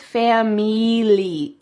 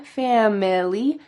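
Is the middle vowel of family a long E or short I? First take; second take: long E; short I. First: The middle vowel is a long E sound. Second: The middle vowel is a short I sound. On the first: The speaker calls it wrong. "She says family. E" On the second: The speaker calls it right. "She didn't say fam-ili with a short I"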